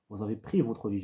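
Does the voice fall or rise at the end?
fall. The pitch falls at the end. It states a fact. "une intention descendante, ça va donner une phrase déclarative"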